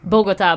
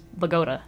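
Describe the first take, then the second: First: It is pronounced the way Colombians say it. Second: It is pronounced the way New Jersey locals say it. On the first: This names the capital city of Colombia. "in Colombia, they say" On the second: This names the town in New Jersey. "This is Bogota"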